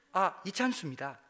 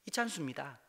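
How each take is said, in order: First: Said in the usual way. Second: Typical Pastor Lee Chan-su. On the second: Retold or imitated. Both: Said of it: "전형적인 이찬수 목사님".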